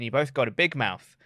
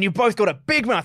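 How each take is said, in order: First: It is said flatly, without intensity. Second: It is said forcefully, with fiery intensity. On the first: The threat sounds casual and unthreatening. The speaker calls it wrong. "he kind of said it like that" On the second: The threat sounds serious and aggressive. The speaker calls it right. "Rather than like"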